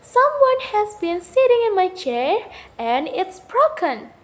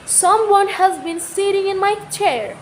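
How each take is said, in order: First: A higher, lightly voiced little bear; a hint of a tiny baby bear; Baby Bear's wee little voice. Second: A higher-pitched big bear voice, lightly voiced; a hint of a big father bear; Papa Bear's big voice. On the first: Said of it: "Baby Bear said in his wee little voice". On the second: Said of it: "Papa Bear said in his big voice". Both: A narrator's reading.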